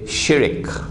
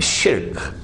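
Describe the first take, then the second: First: An extra vowel splits the word into two syllables. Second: The word is a single syllable ending in rk. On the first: This is how Malay speakers say it. The speaker calls it wrong. "The Malays say shirik" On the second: This is the proper pronunciation. The speaker calls it right. "Please change your pronunciation. It's shirk"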